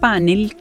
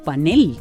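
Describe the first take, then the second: First: The stress is on the first syllable. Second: The stress is on the last syllable. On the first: "como grave" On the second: "como aguda"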